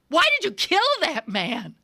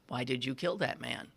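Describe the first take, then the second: First: It is said with expressive, dramatic intonation. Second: It is said in a flat monotone. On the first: The speaker calls it wrong. "your head that is making you think I should say the line" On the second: The speaker calls it right. "say them in a monotone"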